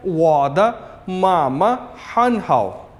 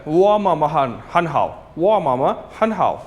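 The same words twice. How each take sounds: First: वादा मामा हन हाओ slow, every syllable full, वादा kept whole; slow full form. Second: वा मामा हन हाओ run together, वादा shortened to वा; fast connected speech. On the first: Teacher gives students the careful full-form phrase, slow. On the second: Teacher shows students how natives say it at speed. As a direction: blend it quickly as वा मामा हन हाओ. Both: Shown as a demonstration. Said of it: "लेकिन जब आप speed में बोलेंगे".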